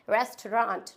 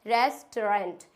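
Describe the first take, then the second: First: "रेस्टोरेंट" the British way, ending "-raant"; British pronunciation. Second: "रेस्टोरेंट" the American way, ending "-rent"; American pronunciation. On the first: Teacher shows learners the British word, "रेस्टोरेंट" as rest-raant. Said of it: "British language में हम इसे बोलेंगे". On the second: Teacher shows learners the American word, "रेस्टोरेंट" as res-trent. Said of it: "American language में इसको बोलेंगे". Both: Shown as a demonstration.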